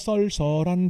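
The vowel is pronounced as 'eo', dialect style. This is how speakers of the regional dialect say it. "우리는 썰썰인데"

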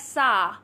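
The vowel is said the American way. "in American English, people pronounce it like sa"

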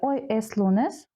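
The voice rises at the end. It asks whether today is Monday.

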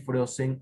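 The word is said with Spanish sounds. "frozen en español"

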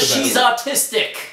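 It is said in a British accent.

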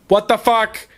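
It is said as a forceful exclamation.

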